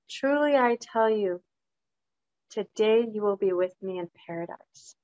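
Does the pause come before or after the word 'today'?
before. The pause comes before the word 'today'. The promise is for paradise on that very day. "Jesus said to his followers"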